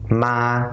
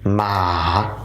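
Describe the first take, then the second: First: The pitch stays level and flat. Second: The pitch drops and then rises again. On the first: It means ghost. "keep their voice flat" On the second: It means tomb. "drop your voice, go a little down, and you got to raise it back up"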